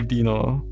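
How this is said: The name is said with German pronunciation. "In German, I would say"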